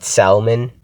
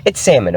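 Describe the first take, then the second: First: "salmon" with a sounded L, SAL-mun; "salmon" mispronounced as SAL-mun, L fully heard; L pronounced in salmon. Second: "salmon" said SAM-un, no L; exasperated correction, "salmon" as SAM-un; silent L in salmon. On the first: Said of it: "people who pronounce the L in salmon". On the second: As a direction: insist on "salmon" with the L left silent. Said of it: "Please pronounce it as salmon". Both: Shown as a demonstration.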